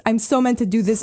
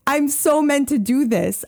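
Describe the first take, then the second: First: Said in the usual way. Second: High and slow, leaning hard on "so"; emphatic conviction. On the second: Real, not acted. Telling the host about the signs, high slow conviction on "so". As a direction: stretch out "so" like it's destiny.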